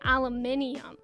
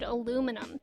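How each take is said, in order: First: It is said with five syllables, British style. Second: It is said with four syllables, American style.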